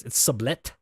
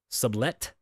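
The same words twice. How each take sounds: First: "sublet" settled lower, confident; word said firmly. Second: "sublet" said slowly, SUB-let with a rise; word said carefully. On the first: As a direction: say "It's sublet." with certainty, lower. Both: Shown as a demonstration. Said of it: "I believe the word is".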